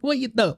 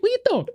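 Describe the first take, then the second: First: It is said in a masculine accented voice. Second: It is said in a feminine accented voice.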